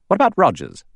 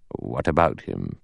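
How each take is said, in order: First: High, sudden question; challenging Lombard. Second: Low, soft counter-question; unmoved judge. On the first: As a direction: throw the question out, voice jumping up. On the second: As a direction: return the question low and unruffled. Judge answers, unblinking. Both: A narrator's reading.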